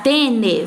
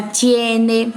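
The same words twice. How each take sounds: First: Tene said with plain e, no diphthong; wrong form tene. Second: Tiene slow, with a clear ie diphthong; correct tiene. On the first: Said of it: "ao invés de ficar tene". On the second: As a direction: draw out tiene, stressing ie. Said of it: "fica tiene". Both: Shown as a demonstration.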